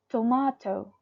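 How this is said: It is said in a British accent. "They pronounce it as tomato, tomato"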